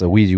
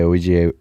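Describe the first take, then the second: First: The letters are said fast, run together. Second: The letters are said slowly and separately.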